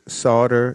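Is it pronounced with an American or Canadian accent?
American. It is pronounced the usual American way.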